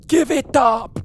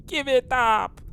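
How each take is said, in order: First: High mock yell with an odd accent; mock sailor shout. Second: High, hammed-up yell with an odd accent; mock sailor shout. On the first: Imitating the sailor's cry to the crew, high mock yell. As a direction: bark it out like a strange sailor. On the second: Repeating Boomdog's cry for the viewers, high mock yell. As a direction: throw out the sailor's cry again. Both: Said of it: "what accent that was".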